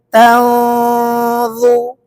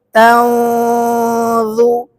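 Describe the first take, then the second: The two takes are said the same way.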